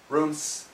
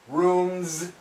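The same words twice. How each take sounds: First: The word ends with a hissing s sound. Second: The word ends with a buzzing z sound. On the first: The speaker calls it wrong. "we don't say" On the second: The speaker calls it right. "all of these S's sound like the Z"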